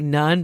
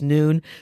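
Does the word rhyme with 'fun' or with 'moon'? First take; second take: fun; moon. First: The word rhymes with 'fun'. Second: The word rhymes with 'moon'. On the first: The speaker calls it wrong. "I always want to say none" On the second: The speaker calls it right. "but I know it's noon"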